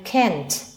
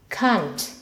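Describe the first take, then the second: First: It is said in an American accent. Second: It is said in a British accent. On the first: "in American English, we say can't" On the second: "In British English, we say can't"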